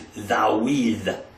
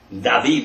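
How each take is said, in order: First: The middle consonant is a w sound. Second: The middle consonant is a v sound.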